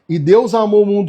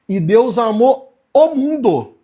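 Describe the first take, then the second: First: The phrase is spoken at a normal pace. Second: The phrase is spoken more slowly.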